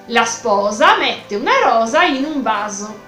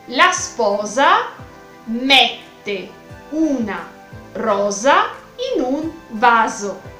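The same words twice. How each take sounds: First: The sentence is said at a faster pace. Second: The sentence is said at a slower pace.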